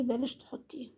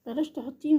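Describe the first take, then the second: First: Quietly urging her to drop it; soft advice. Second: بلاش pushed harder, ending on a rise; firmer repeat. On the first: Telling the woman to remove her niqab, softly. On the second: Urging the woman again to drop the niqab, more insistently. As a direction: press the word بلاش as an insistent plea. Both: Real, not acted.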